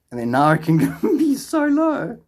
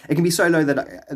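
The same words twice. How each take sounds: First: High, slow, breaking into laughter; laughing in disbelief. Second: Said in the usual way. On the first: Real, not acted. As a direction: laugh through it as pitch climbs. Laughs at how low earnings are.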